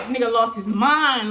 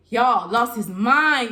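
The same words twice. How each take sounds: First: Said in the usual way. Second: "lost his mind" dragged out slowly and leaned on; slow emphatic repeat. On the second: Shown as a demonstration. Retelling to viewers, slowly stressing "lost his mind".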